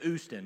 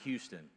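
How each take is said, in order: First: The word begins without any h sound. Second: The word begins with a clear h sound. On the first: "They go to Houston" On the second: "not Houston"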